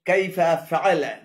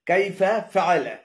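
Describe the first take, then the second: No difference in how they are said.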